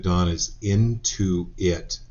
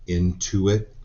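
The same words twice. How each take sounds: First: Slow, drawn-out "into it" split into two words; wordplay emphasis. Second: Said in the usual way. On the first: Shown as a demonstration. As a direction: stretch "into it" so the pun on intuition is heard. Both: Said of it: "get it?".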